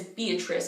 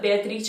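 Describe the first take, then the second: First: It is said with an English accent. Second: It is said with an Italian accent. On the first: "is Beatrice in English" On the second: "The equivalent of Beatrice"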